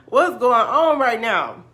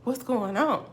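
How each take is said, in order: First: High, loud, drawn-out disbelief; hammed-up freak-out; loud bewilderment. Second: Higher-pitched baffled question; puzzled, still holding it in; retold bewilderment. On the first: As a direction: wail it slowly in comic astonishment. Retold shock, escalating after laugh. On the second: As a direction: act out confused disbelief. Retold shock at right guesses.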